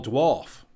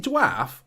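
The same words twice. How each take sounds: First: "dwarf" with a rounded "or" vowel. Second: "dwarf" with an open "ah" vowel, like "dwahf"; dwarf with flat A. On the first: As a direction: say "dwarf" as "dwawf". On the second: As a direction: say "dwarf" as "dwaff". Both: Shown as a demonstration. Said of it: "is it dwarf or dwarf?".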